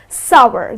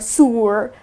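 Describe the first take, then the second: First: The word rhymes with power. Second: The word does not rhyme with power. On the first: The speaker calls it right. "you can rhyme it with power or shower. So it's sour" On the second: The speaker calls it wrong. "many people pronounce it as sour or sour. So all weird pronunciations"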